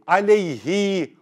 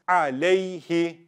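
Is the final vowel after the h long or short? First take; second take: long; short. First: The final vowel after the h is stretched long. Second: The final vowel after the h is short. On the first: The speaker calls it wrong. "I don't say aleyhi" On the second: The speaker calls it right. "That's why I don't stretch it. I read as alayhi"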